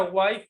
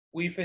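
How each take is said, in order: First: "wife" said as one syllable, "guaif"; pronunciación inglesa. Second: "wife" read Spanish-style, "GÜI-fe"; pronunciado como se escribe. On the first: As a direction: say "wife" with an "ai" and silent e. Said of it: "Se pronuncia wife". ("wife" pronunciado "uaif") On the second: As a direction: say "wife" as spelled, with two syllables. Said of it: "se escribe wife". ("wife" leído tal cual, "güife") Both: Shown as a demonstration.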